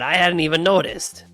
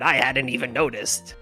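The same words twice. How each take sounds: First: It is said in a New York accent. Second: It is said in a pirate voice. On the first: "like a New York accent" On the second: "Can you make Gumshoe a pirate?"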